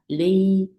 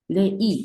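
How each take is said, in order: First: The vowel sound glides smoothly without a break. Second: The vowel sound is broken apart, not gliding. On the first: The speaker calls it right. "부드럽게 발음돼요" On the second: The speaker calls it wrong. "레이가 아니라"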